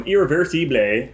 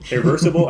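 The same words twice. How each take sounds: First: "Irreversible" said as ee-reh-vair-see-blay; attempted French pronunciation. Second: "Irreversible" said the English way, questioning; unsure anglicized pronunciation. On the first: Host introducing the French film, "Irreversible" in attempted French. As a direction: give "Irreversible" a clumsy French ending, "-blay". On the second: Host second-guessing the French title, "Irreversible" anglicized and unsure. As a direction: try "Irreversible" as ir-ver-suh-bluh, higher pitched. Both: Shown as a demonstration. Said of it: "pronounce it in French".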